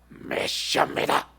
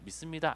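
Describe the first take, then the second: First: It is said in a gruff, mannered voice. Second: It is said in an ordinary, clear voice. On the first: This imitates the big-church pastors' way of speaking. "어떻게 하는지 아십니까?" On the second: This is how an ordinary person would say it. "믿습니다 안 그래요"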